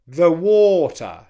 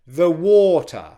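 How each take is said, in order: First: The word 'the' is weak and unstressed. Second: The same.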